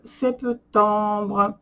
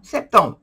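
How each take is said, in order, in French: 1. Le mot est prononcé bizarrement. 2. Le mot est prononcé normalement.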